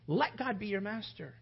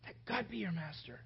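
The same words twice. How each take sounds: First: Said in the usual way. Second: Much softer, gentle repeat. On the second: Real, not acted. Preacher repeating the appeal to the congregation, much softer. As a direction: let it settle quietly.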